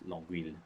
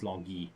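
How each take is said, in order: First: The ending is said with an anglicized sound. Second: The ending is said with the French 'euil' sound. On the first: The speaker calls it wrong. "not Longueuil" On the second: The speaker calls it right. "So this is Longueuil, actually"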